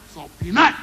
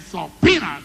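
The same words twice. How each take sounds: First: The stress falls on the syllable nut. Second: The stress falls on the syllable pea. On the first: The speaker calls it wrong. "You must not accent the nut. You must not say" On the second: The speaker calls it right. "you must accent the P. You say"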